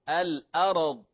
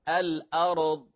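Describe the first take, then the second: Both takes have the same delivery.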